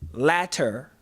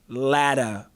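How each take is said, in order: First: The middle consonant is a crisp T sound. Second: The middle consonant is a soft D-like sound.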